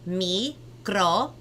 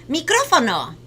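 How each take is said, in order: First: The word is said slowly. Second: The word is said fast.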